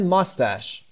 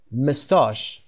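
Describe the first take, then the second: First: ماستش as "MUS-tash", short "a" in last syllable; American pronunciation. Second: مستاش as "muh-STAHSH", long open second vowel; British pronunciation. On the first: Teacher contrasting American with British for learners, ماستش as "MUS-tash". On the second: Teacher repeats the British form for learners, مستاش as "muh-STAHSH". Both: Shown as a demonstration.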